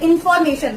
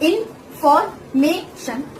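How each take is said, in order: First: The word is said smoothly without breaks. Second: The word is broken into separate syllables.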